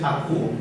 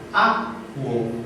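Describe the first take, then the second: First: The stress is on the last syllable. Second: The stress is on the first syllable. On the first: The speaker calls it wrong. "no es acuo" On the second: The speaker calls it right. "la pronunciación correcta es acuo"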